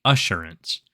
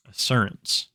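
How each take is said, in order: First: Assurance with an SH sound, "uh-SHUR-ence"; normal pronunciation. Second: Assurance said with an S sound, "uh-SUR-ence"; odd pronunciation. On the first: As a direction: say Assurance the standard way, SH in the middle. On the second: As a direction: say Assurance with a plain S instead of SH. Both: Shown as a demonstration. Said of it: "as the normal people would call it".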